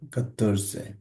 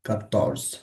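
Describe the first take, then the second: First: The word ends with a final vowel. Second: The word ends without a final vowel. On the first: "আর আমরা এখন বলছি কাতর্সে" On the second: "এটা থাকে না, তখন কাতর্স বলে"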